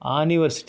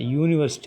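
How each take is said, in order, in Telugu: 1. ఈ పదం తెరిచిన 'ah' అచ్చుతో మొదలవుతుంది. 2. ఈ పదం 'yoo' శబ్దంతో మొదలవుతుంది. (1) "ఆనివర్సిటీ అంటలా" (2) "యూనివర్సిటీ అన్న"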